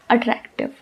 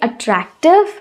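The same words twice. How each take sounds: First: The word is said flatly, with little mouth movement. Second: The word is said with careful, effortful articulation. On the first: The speaker calls it wrong. "I'll not twist my mouth. I'll just simply and bluntly say attractive" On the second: The speaker calls it right. "when I'm taking that effort to pronounce that word attractive"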